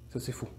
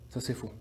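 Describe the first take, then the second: Both takes have the same delivery.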